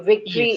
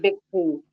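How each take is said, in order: First: The word begins with a V sound. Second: The word begins with a B sound. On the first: The speaker calls it right. "you all don't say V" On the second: The speaker calls it wrong. "it is B for you"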